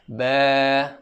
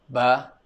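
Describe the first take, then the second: First: The vowel is held long. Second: The vowel is cut short. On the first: The speaker calls it right. "kena sama-sama cukupkan bacaan mat panjang tu" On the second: The speaker calls it wrong. "tu bacaan pendek"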